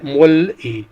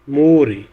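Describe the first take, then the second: First: The final consonant is kept separate from the vowel. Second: The final consonant is linked onto the vowel. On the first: "ये लफ्ज़ है" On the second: "link कर जाएगा तो लफ्ज़ प्रोनाउंस होगा"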